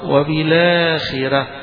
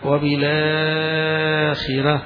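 First: The long vowel is held for two counts. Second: The long vowel is held for four counts. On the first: "2 حركتين" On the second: "و4"

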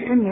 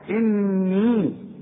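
First: The doubled n is short, without a nasal hum. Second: The doubled n is held with a nasal hum. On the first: The speaker calls it wrong. "فما تقولش إني" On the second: The speaker calls it right. "كل نون على شدة لازم تغنى"

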